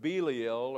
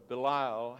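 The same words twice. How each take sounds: First: Belial said BEE-lee-ul, stress up front; first pronunciation. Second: Belial said buh-LIE-ul, stress in the middle; alternative pronunciation. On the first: Teacher offering the class one reading, Belial pronounced BEE-lee-ul. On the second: Teacher offering the class another reading, Belial pronounced buh-LIE-ul. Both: Shown as a demonstration. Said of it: "however you pronounce that".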